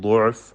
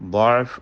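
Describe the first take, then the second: First: The first vowel is a rounded 'u'. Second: The first vowel is an open 'a'. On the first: "ദ്വാദിന് ളമ്മ കൊടുത്തുകൊണ്ട് ഉച്ചരിക്കുക" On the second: "ഫത്ഹ് കൊടുത്തുകൊണ്ടാണ് ഓതേണ്ടത്"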